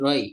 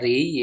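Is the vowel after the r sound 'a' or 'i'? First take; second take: a; i. First: The vowel after r is a. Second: The vowel after r is i. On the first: It is the verbal noun form. "meriwayatkan dengan fathah berarti roi" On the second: It names the act of drinking one's fill. "kalau dikasrokan berarti dibaca ri"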